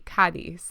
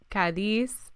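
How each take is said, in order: First: The stress is on the first syllable. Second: The stress is on the second syllable. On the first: The speaker calls it right. "when there's an accent, that means that like the emphasis is on that letter" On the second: The speaker calls it wrong. "instead of Cadiz"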